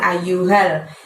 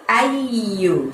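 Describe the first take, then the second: First: The y sound is short and single. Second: The y sound is held and doubled. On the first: The speaker calls it wrong. "jangan ayyuhal" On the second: The speaker calls it right. "harus dibaca double dua y"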